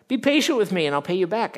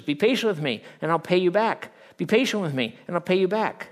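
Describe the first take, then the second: First: High, loud, fast plea; pleading. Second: Loud, high repeated begging; repeated plea. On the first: Kneeling servant begging for patience, high urgent plea. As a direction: beg for more time. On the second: First servant's plea replayed by the preacher, loud and high. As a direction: beg for time once more. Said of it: "Same words". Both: Acted.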